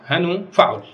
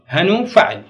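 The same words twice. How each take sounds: First: Said in the usual way. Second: هنو stressed, then فعل falling; stress on hanu. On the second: Shown as a demonstration. Teacher weighing هنو against its pattern فعل.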